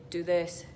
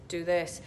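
No difference in how they are said.

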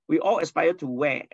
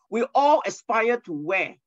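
First: Said in the usual way. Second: Rhetorical question. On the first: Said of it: "correct the spelling mistake". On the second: Shown as a demonstration. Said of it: "There's a spelling mistakes here".

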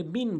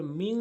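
First: মিন short with a clear n; mistaken plain noon. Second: মিং held as a hum in the nose; correct nasal ghunna. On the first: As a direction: close মিন on a plain n, no nasal hum. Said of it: "ভুলটি করে মিন বলি". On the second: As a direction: hide the n of মিং in a long nasal ng. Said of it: "নাকের ভিতরে নিয়ে পড়তে হবে". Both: Shown as a demonstration.

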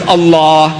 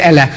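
First: Allah with a dark heavy L, long open vowel; correct pronunciation. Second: Allah with light L and flat "a" as in cat; thin-vowelled pupil's attempt at "Allah"; mispronounced Allah. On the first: Retold or imitated. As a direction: demonstrate a rounded, drawn-out "Allah". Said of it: "Not Allah. Say Allah". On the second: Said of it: "No, no, try again".

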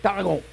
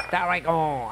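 First: Tarragon repeated a touch firmer, settling on it; second try pronunciation. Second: Tarragon said softly as a hesitant first try; unsure pronunciation. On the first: Host retrying the herb name for viewers, firmer. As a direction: say Tarragon again with more confidence. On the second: Host testing how to say the herb, hesitant. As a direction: sound out Tarragon like you are unsure. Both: Shown as a demonstration. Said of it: "I don't know how you say it".

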